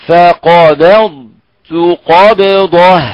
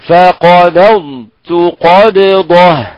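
Both takes have the same delivery.

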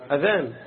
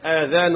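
First: The first vowel is short. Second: The first vowel is long. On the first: The call to prayer. The speaker calls it right. "أذان بدون إيه؟ بدون مد" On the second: Ears, the plural of ear. The speaker calls it wrong. "آذان اللي هي بالمد جمع أذن"

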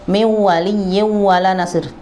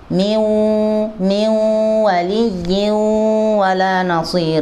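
First: The n in 'min' has no nasal hum. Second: The n in 'min' carries a nasal hum. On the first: The speaker calls it wrong. "enggak boleh" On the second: The speaker calls it right. "harus ditampakkan gunnahnya min"

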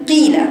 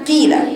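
First: The kasra vowel is clearly heard after the letter. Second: The kasra vowel is clearly heard after the letter.

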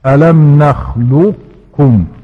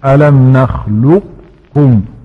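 Both takes have the same delivery.

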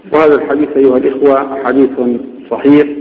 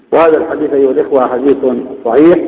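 The two takes are said the same way.

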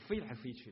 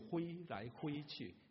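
First: The verb begins with an f sound. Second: The verb begins with an h sound. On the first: The speaker calls it right. "是飞来飞去的" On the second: The speaker calls it wrong. "我们的语言里面福州话没有佛这个音，所以我们只有挥来挥去"

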